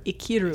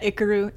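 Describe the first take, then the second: First: "Ikiru" with a clear ee in the middle, ih-KEE-roo; corrected pronunciation. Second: "Ikaru" with the middle vowel weakened, not a clear ee; "Ikaru" as a mistaken IK-uh-roo; mispronounced title. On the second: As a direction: say "Ikaru" as the wrong version, middle syllable "kuh". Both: Shown as a demonstration. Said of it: "Not Ikaru".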